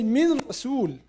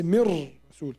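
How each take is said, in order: First: من رسول with the nun sounded separately; wrong reading. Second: من رسول with the nun merged into a doubled ra, mirrasul; correct reading. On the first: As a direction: say من رسول keeping the nun, min rasul. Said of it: "We don't say". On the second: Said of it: "We say". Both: Shown as a demonstration.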